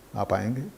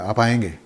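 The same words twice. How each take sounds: First: It sounds like a genuine question. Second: It sounds like a firm order.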